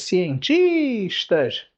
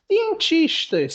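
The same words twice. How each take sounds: First: Said in the usual way. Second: "Cientistas" drawn out slowly, high start; stressed syllable shown. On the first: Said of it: "outra paroxítona". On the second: Shown as a demonstration. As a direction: marca a sílaba tônica em "Cientistas" devagar. (pronúncia lenta destacando a tônica)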